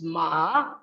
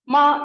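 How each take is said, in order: First: The pitch dips low, then rises. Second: The pitch stays high and level. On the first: It means horse. "ma with low or falling then rising pitch" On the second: It means mother. "ma with high level pitch"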